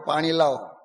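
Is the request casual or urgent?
casual. It is said as a casual, routine order.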